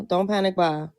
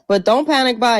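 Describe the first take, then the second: First: Said in the usual way. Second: Louder, punchy warning on panic; "panic" hit hard and loud, a firm warning; emphatic warning. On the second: Shown as a demonstration.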